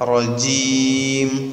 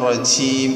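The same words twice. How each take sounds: First: The j sound is fully voiced without escaping air. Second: The j sound is breathy with air escaping. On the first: The speaker calls it right. "ജഹ്റോടുകൂടെ ഉച്ചരിക്കണം, ഹംസില്ലാതെ ഉച്ചരിക്കണം" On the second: The speaker calls it wrong. "റജീം എന്നായി പോകാൻ പാടില്ല"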